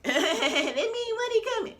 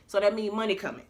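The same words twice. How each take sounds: First: High, slow, laughing squeal. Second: Said in the usual way. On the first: Real, not acted. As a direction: laugh it out in delight. Repeats the phrase, then laughs.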